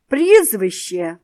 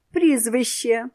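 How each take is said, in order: First: Much louder, slow bellowed demand; raised voice. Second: Curt, a bit raised repeat. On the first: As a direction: bark it out slowly the third time. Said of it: "підвищивши голос". (гучно, повільно, підвищеним голосом) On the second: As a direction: repeat it without looking up. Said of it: "повторив директор". (сухо, трохи голосніше) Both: A narrator's reading.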